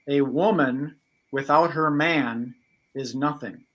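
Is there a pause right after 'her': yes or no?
no. It runs on from 'her' straight into 'man'.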